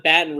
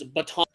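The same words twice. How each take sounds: First: Baton squashed to "BAT-n"; wrong-way Baton. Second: Baton as "buh-TON"; corrected Baton. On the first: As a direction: say Baton like "batten", stress first. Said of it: "that's like saying it's not". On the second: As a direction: say Baton with a full second syllable, "ba-TON". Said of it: "it's not Baton Rouge". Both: Shown as a demonstration.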